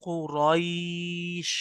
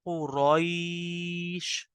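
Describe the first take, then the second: First: The vowel is softly drawn out. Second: The same.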